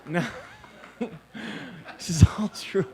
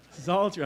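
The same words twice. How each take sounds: First: Breathless laughing whisper, slow; half-whispered through a laugh. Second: Said in the usual way. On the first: Real, not acted. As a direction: still laughing, barely voiced. Laughing aside after the joke.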